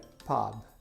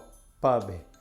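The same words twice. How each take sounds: First: The vowel is a wide-open 'a' sound. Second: The vowel is another not wide-open sound. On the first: The speaker calls it right. "é pub" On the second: The speaker calls it wrong. "ou pub"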